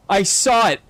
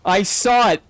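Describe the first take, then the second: No difference in how they are said.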